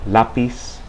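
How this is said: The z sounds like an s. This is how it is said in Latin America. "it always represents the S sound in Latin American dialects"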